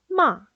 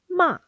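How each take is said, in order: First: The pitch falls sharply, short and strong. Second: The pitch falls sharply, short and strong.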